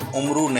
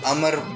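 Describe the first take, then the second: First: It starts with u and ends in oo. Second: It starts with a and has no final vowel. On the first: The speaker calls it wrong. "उमरू नहीं" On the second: The speaker calls it right. "हुर्फ ऐन पर पेश नहीं बल्कि ज़बर है और वाव साकिन है"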